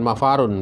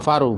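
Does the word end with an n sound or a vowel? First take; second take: n sound; vowel. First: The word ends with a final n sound. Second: The word ends on a vowel, without n. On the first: The speaker calls it wrong. "bukan mafarun" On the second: The speaker calls it right. "Itu yang benar adalah mafaru"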